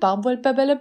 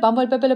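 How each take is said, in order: First: The word is spoken at a moderately fast pace. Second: The word is spoken at a very fast pace. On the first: "Nun etwas schneller" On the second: "Und jetzt ganz schnell"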